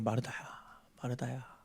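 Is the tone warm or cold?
warm. It is said as a simple, gentle call.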